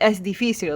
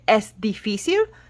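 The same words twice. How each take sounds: First: The voice falls at the end. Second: The voice rises at the end. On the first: It states that something is difficult. "that would mean it's difficult" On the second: It asks whether something is difficult. "going up at the end with your tone of voice"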